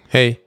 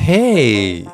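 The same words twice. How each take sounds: First: The greeting is said short and quick. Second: The greeting is said slower and warmer. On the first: The person does not want to talk. "if it's like a quick like" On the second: The person is open to talking. "But if it's like a, oh"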